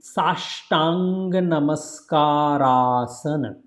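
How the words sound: The words are joined in one flow. "If you say together"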